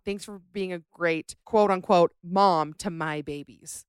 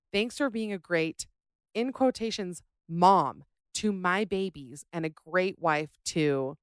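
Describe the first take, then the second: First: "quote unquote" said loud, then "mom to my babies" slowed right down; mocking quote marks. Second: Said in the usual way. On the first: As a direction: lean hard on "quote unquote" like sarcastic air quotes. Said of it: "said to her daughter-in-law". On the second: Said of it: "wrote in my Mother's Day card".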